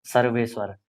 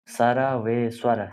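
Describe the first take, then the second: First: Said in the usual way. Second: सर्वेश्वर drawn out slowly, syllable by syllable; teacher lingering on सर्वेश्वर for students; slow pronunciation. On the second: Shown as a demonstration. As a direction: stretch सर्वेश्वर out so every sound is clear.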